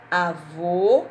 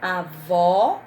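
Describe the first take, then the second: First: Avô with a loud, closed final O; Avô ending on a drawn-out closed O; closed final vowel. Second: Avó with a loud, open final O; Avó ending on a wide, drawn-out open O; open final vowel. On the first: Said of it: "o som é mais fechado". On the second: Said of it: "o som é aberto". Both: Shown as a demonstration.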